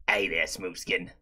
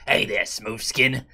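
First: Very low soft rasp; deep ghoul voice. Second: Low slow gravelly sneer; ghoul sneer. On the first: Pretend. Repeats ghoul line lower. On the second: Retold or imitated. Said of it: "made a slur ... called".

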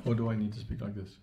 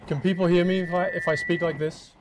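First: Said in the usual way. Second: Louder, higher testing voice; loud mic test. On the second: Shown as a demonstration. Speaker testing the mic for the room, projecting loudly.

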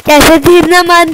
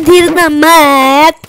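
First: Said in the usual way. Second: Very slow, drawn-out धीरना मत; slow mock quote. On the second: Imitating the teammate for viewers, slow drawn mock. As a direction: stretch धीरना मत out mockingly. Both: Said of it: "ऐसे बोल रहा था guys".

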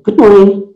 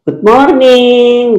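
First: Said in the usual way. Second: "Good morning" high and long drawn-out; classroom greeting. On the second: Shown as a demonstration. Teacher mimics pupils greeting in classroom, "Good morning" in a high drawl. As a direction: stretch "morning" out like a class chorus. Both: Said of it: "No, that's in classroom".

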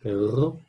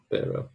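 First: "Perro" with a drawn-out trill; rolled R. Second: "perro" with one light tap, like pero; just flick the r in "perro", no trill; single tapped R. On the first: Teacher alternates the two words, "Perro" with a long trill. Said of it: "I say it too long". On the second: Teacher alternates the two words, "perro" with a short tap. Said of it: "This one's perro". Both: Shown as a demonstration.

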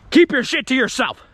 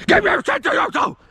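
First: Raised, louder mock-angry warning; stern warning. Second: Very high hammed-up yell; strained mock scream. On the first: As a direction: lay down a firm boundary. Warns off, then exaggerates same line. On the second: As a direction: screech the warning in mock fury. Same warning, exaggerated repeat.

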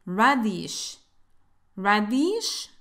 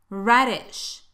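First: "radish" mispronounced as ra-deesh; "radish" ending in a long eesh; wrong long vowel. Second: "Radish" as rad-ish with short lax i; short relaxed vowel. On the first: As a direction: say "radish" with a tense ee and a clear d. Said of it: "No vayas a decir". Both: Shown as a demonstration.

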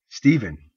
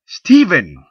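First: Raised, louder startled "Stephen!"; startled call. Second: "Stephen!" much higher and louder, snapped; sharp snap. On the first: Wife startled by her husband's strange look, alarmed call. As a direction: call his name in sudden alarm. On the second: Wife snapping her husband out of his reverie, sharp loud call. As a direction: snap his name to break his daydream. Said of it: "Her tone snapped him from his reverie". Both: Acted.

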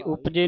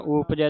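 First: ਉਪਜੇ ending in a close "ay" sound; wrong vowel ending. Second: ਉਪਜੈ ending in an open "ai" sound; double-stroke vowel. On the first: Teacher warns readers off this form, ਉਪਜੇ with narrow final e. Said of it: "ਉਪਜੇ ਨਹੀਂ ਪੜ੍ਹਨਾ". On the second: Teacher models correct reading, ਉਪਜੈ with open final ai. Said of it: "ਦਲੈਂਕੜਾਂ ਦੇ ਨਾਲ". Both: Shown as a demonstration.

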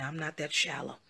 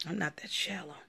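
First: Said in the usual way. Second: Whispered repeat of I'm not that shallow. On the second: Real, not acted. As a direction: breathe the denial.

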